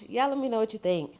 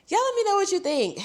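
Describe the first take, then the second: First: Said in the usual way. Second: Pitched way up, sing-song; high sing-song. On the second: Pretend. Repeats sign-off in two voices.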